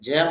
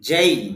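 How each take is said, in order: First: The vowel is a plain e without glide. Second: The vowel glides from e toward i. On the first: The speaker calls it wrong. "যে হবে না" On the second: The speaker calls it right. "শুদ্ধ উচ্চারণ হবে যেই"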